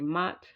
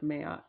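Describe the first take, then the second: First: The name is said as one syllable. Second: The name is said as two syllables. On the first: This is how most people say it. "I know most people just say Mat" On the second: This is the version that sounded right. "that sounded right to me"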